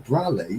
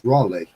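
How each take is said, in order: First: The first vowel sounds like the a in cat. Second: The first vowel sounds like the o in lot. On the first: The speaker calls it wrong. "it's not a brally" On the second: The speaker calls it right. "but I'm saying brolly"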